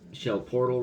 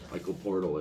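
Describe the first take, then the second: First: The name is said with French pronunciation. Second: The name is said with American pronunciation.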